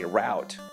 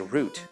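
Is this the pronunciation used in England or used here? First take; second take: here; England. First: Said the way people here say it. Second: Said the way people in England say it. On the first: "But here they say route" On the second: "in England, they say router. And then, uh, because they say root"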